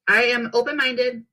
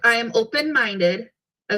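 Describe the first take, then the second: First: It is said fast. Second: It is said slowly.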